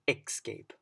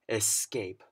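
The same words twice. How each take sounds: First: The word begins without a clear 'es' sound. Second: The word begins with a clear 'es' sound. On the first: The speaker calls it wrong. "instead of" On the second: The speaker calls it right. "you want to remember it's es"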